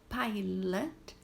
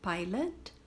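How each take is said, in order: First: "pilot" as PIE-let, rising; model word. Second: "pilot" said PIE-let, the last vowel weak; no O sound. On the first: Teacher modelling pilot's vowel. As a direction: say "pilot" with no O sound. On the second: Teacher correcting how to say pilot. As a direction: clip the O in "pilot" to a schwa. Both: Shown as a demonstration. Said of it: "Não tem som de O".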